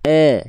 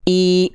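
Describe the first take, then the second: First: The vowel comes out open, like 'e'. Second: The vowel comes out close, like 'ee'. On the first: The speaker calls it wrong. "Kalau vokal I dilafalkan tapi tengah lidahnya gak naik. ... Keluarnya E" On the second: The speaker calls it right. "Tapi kalau diangkat tengah lidahnya"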